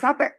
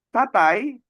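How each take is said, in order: First: The word ends with a short single e vowel. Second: The word ends with a full ai diphthong. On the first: This is the shortened Javanese-style form. "dibuat pendek" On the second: This is the Malay-style form. "bunyi diftong"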